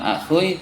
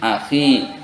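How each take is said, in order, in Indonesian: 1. Ada vokal u sebelum i terakhir. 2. I terakhir langsung mengikuti, tanpa u. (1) "jadi bukan akhui" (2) "tetapi akhi"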